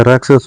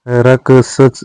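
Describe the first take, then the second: First: राक्षस with joined ksh, final s; correct cluster. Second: राक्षस broken up, ending garbled; wrong cluster. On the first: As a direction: say राक्षस as "raakshas". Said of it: "होता है". (राक्षस में शुद्ध क्ष) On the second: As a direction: say राक्षस haltingly as "rak-sach". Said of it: "नहीं होता है". (राक्षस का अशुद्ध उच्चारण) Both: Shown as a demonstration.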